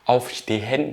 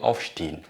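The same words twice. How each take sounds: First: It is pronounced in a careful, non-native way. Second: It is pronounced the way native Germans say it. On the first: The speaker calls it wrong. "je ne vais pas dire Aufstehen" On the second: The speaker calls it right. "je vais dire Aufstehen"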